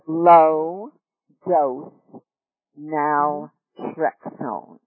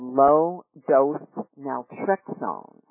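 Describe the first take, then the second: First: The phrase is said slowly and deliberately. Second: The phrase is said at a normal pace.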